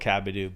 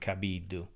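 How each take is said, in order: First: The surname has an English-style pronunciation. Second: The surname has an Italian-style pronunciation.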